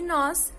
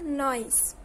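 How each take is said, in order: First: The vowel is a single plain vowel. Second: A glide is added, making a diphthong. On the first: "como em nós" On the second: "o acréscimo da semivogal, formando um ditongo"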